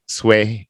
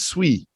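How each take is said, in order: First: The syllable has a long 'ay' vowel. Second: The syllable has a short, plain vowel. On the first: The speaker calls it wrong. "it's not sway" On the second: The speaker calls it right. "it's swe"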